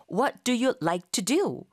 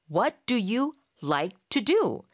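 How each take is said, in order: First: Drawn out word by word; slow model sentence. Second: Slow, with a different voice colour; slow model repeat. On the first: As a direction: say it slowly for students to copy. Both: Shown as a demonstration. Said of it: "이런 식의 문장을 만드는 순서".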